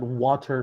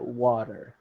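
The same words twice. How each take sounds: First: It is said with a British accent. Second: It is said with an American accent. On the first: The speaker calls it wrong. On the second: The speaker calls it right.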